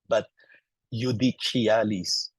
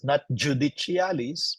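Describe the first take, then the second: First: The word begins with a Y sound. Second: The word begins with a J sound. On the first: The speaker calls it right. "It is replaced by letter I" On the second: The speaker calls it wrong. "because J doesn't exist"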